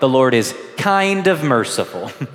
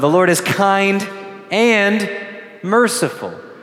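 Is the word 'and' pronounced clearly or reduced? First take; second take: reduced; clearly. First: It is said fast, 'and' reduced to 'of'. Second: It is said carefully, 'and' fully pronounced. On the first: The Lord is only somewhat merciful. The speaker calls it wrong. "when sometimes we say that too fast or we sing it, it kind of sounds like" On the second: The Lord is both kind and merciful. The speaker calls it right.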